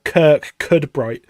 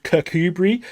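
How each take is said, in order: First: "Kirk Cudbright" said as spelt, two words, slowly; spelling pronunciation. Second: "Kirkcudbright" said like "Kirkoobree", no d sound; local pronunciation. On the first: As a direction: read "Kirk Cudbright" the way an English reader would. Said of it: "it's spelt like Kirk Cudbright". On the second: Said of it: "the place is actually called". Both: Shown as a demonstration.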